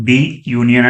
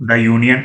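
First: "the union" said "dee yoonian"; long ee in "the" before "union". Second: "the union" said "da yoonian". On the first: Teacher showing what to avoid, "the union" as "dee union". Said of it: "అని పలకకూడదు". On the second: Teacher modelling for students, "the union" as "da union". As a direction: open vowel in "the", da before "union". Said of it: "అని పలకాలి". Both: Shown as a demonstration.

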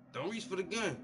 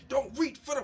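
First: Raised warning to the cop; louder, urgent plea not to reach; man warns the officer, raised and urgent; firm warning. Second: Much louder, higher yell that gets cut off; the same warning, now a cut-off panicked yell; panicked shout. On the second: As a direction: shout it in panic and break off mid-line. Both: Retold or imitated. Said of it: "When the man say".

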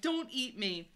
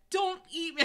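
First: Slightly toned-down high plea; beg, raised in pitch but restrained; begging. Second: High, loud pleading; wrongly said plea. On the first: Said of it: "I begged". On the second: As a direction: blurt it out high and loud, begging. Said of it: "I said it in such a way". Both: A narrator's reading.

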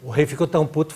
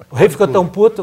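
First: Said in the usual way. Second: Louder retake. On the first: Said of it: "não sei se pode falar puto". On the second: Shown as a demonstration.

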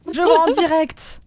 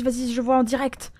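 First: Slower and louder, leaning on vois; emphatic repeat. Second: Said in the usual way. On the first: Real, not acted. Repeating it to the teammate, slow emphatic echo. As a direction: drag it out, pressing each word.

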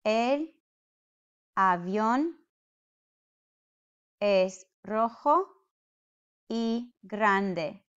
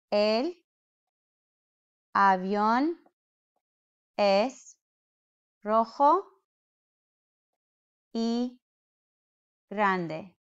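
First: Said in the usual way. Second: Word by word. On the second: Shown as a demonstration.

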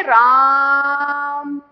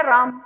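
First: राम with a long held आ; drawn-out Ram. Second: Said in the usual way. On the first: Shown as a demonstration. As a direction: stretch the आ in राम slowly. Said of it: "एक हमने इसको बोलना है राम". (राम का आ देर तक खींचकर बोलना) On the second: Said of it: "एक शब्द है राम".

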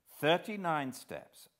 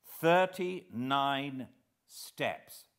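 First: Said in the usual way. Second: "Thirty-nine steps" drawn out slowly, falling; reading "Thirty-nine steps" aloud from Scudder's book, slowly. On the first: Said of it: "and again". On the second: A narrator's reading. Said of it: "I read".

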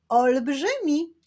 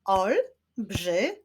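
First: Said in the usual way. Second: "Olbrzymi" slowly split as Olb-rzy-mi; three separate beats for "Olbrzymi", pauses between; syllable by syllable. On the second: Shown as a demonstration. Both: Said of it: "Wyklaszczmy sylaby w tym wyrazie".

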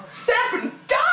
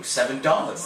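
First: Very high, hammed-up exclamation; mock amazement. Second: Said in the usual way. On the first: Player finding cash in the game, high mock-amazed cry. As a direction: shoot way up in pitch. Exaggerated repeat of cash find.

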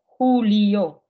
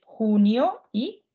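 First: Хуліо said louder with a clear л, falling; clear Spanish. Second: Хуніо said slowly with a clear н, xu-ni-o; slow careful Spanish. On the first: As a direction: set хуліо against хуніо, the л distinct. (чітко: хуліо, з виразним л) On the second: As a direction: stretch хуніо so the н is heard. (повільно й чітко: хуніо) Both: Shown as a demonstration. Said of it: "Оце, що завжди всі путають".

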